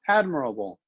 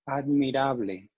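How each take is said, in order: First: It has English sounds with weak, reduced vowels. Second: It has Spanish sounds with every vowel clearly pronounced. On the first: "So you can practice the English pronunciation" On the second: "If I look at Spanish, let's try with just the vowels"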